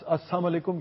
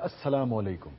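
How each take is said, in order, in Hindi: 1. कुछ ध्वनियाँ, जैसे 'l', छोड़ दी जाती हैं। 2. हर ध्वनि, 'l' सहित, पूरी तरह बोली जाती है। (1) "ये सब गलत है जी" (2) "दुरुस्त जो प्रोनाउंसिएशन है"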